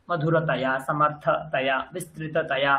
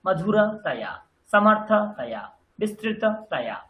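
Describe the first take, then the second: First: মধুরতয়া, সমর্থতয়া, বিস্তৃততয়া lower, with little gap before taya; low-pitched, connected মধুরতয়া, সমর্থতয়া, বিস্তৃততয়া; run together. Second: মধুরতয়া, সমর্থতয়া, বিস্তৃততয়া each paused before taya; stem, gap, falling taya in মধুরতয়া, সমর্থতয়া, বিস্তৃততয়া; segmented drill of মধুরতয়া, সমর্থতয়া, বিস্তৃততয়া, breaking off taya; split before taya. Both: Shown as a demonstration. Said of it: "তয়াটাকে একসাথে উচ্চারণ করুন।".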